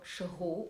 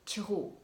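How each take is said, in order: First: It starts with a soft sh sound, northern style. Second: It starts with a ch sound, southern style.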